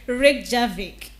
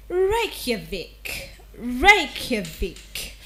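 First: Reykjavik said RICK-zha-vik; common mispronunciation. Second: Reykjavik said slowly, RAKE-uh-vik; slow correct pronunciation. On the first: Host imitating the error, RICK-zha-vik. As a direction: Reykjavik with a zh in the middle. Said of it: "A lot of people will say". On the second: Diction host slowly modelling RAKE-uh-vik. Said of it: "this city is pronounced as". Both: Shown as a demonstration.

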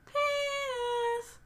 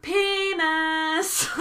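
First: High, drawn-out mock yell, held back in volume; little child yelling. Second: Put-on high, loud, drawn-out child's yell; yelling at traffic. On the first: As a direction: imitate a tiny voice yelling from afar. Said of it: "just yelling". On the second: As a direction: holler it gleefully like a small kid at passing cars. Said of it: "I'm just yelling at traffic".

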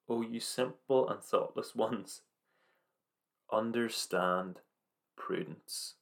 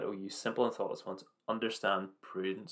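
First: Slow, drawn-out words, last word fading to a whisper; slow solemn verse. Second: Said in the usual way. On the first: Acted. Slow emphatic verse quote.

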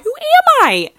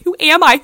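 First: A far higher, louder squealing repeat; mock disbelief peaking. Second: A much higher, louder incredulous squeak; mock disbelief. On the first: Stealing bobby pins, shrieking at herself in mock horror. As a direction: push the same question up into a shriek. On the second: Stealing bobby pins, squeaking at herself in mock shame. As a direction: ask it, appalled at yourself. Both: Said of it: "I'm like".

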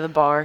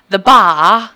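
First: Said in the usual way. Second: "bar" said "bah" with no r, loud rising; loud Northern English The bar; Northern English accent. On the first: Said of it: "instead of". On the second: Retold or imitated. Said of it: "She kept saying".

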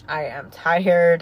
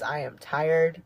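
First: Louder, slow, leaning on tired; emphatic repeat. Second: Said in the usual way. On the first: Shown as a demonstration. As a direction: insist on the word tired, slowly. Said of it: "I am tired, okay?".

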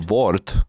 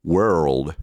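First: Wort with a short o and hard t, no r or l; Czech Wort. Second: World with a curled er, l and a final d; correct world. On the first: Retold or imitated. Teacher imitating how Czechs say it wrong. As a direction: say Wort the Czech way, clipped and flat. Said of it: "what Czech people say". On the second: Shown as a demonstration. Teacher modelling the right way after the Czech version. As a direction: glide through world and land the d. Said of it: "also the D sound at the end".

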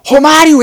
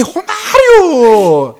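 First: Short, high, very loud yell of the name; hammed-up name-shouting. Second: Long, drawn-out, high football yell; hammed-up name-shouting. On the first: Passenger throws a player's name at the driver, short mock shout. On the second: Driver echoes the passenger's player name, long-drawn mock roar. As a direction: stretch the name like a commentator's goal cry. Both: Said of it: "Uma gritaria de nome".

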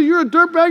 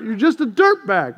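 First: Dirt bag thrown out higher and louder, dirt stressed; mock insult. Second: Said in the usual way. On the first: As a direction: spit out dirt bag like a jab. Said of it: "When someone says". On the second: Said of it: "You're just dirt".

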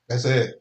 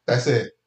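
The two takes are said the same way.

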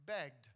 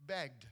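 First: Begged dropped low and soft; begged, low and deliberate; stress on begged. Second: Begged dropped low and slow for weight; Begged, said low and deliberate; stress on begged. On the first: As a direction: lay begged down low and slow. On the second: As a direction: let Begged fall heavy and low. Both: Shown as a demonstration. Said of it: "Do you know what that word means?".

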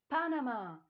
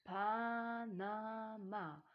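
First: PANAMA cried out high and loud; joyful shout. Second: PANAMA stretched syllable by syllable, Pa-na-ma; slow sounding-out. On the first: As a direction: shout PANAMA as a jubilant discovery. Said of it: "tanzen vor Freude". („Panama“ laut und freudig gejubelt) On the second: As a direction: draw out each vowel of PANAMA, raised pitch. Deciphers word syllable by syllable. („Panama“ langsam Silbe für Silbe gedehnt) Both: A narrator's reading.

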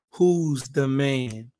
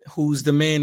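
First: Each word of "Who's the Man" spaced out slow, stress on "who's"; slow title announcement. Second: Said in the usual way. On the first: Shown as a demonstration. Podcast host announcing his series title slowly. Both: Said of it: "we are doing a series entitled".

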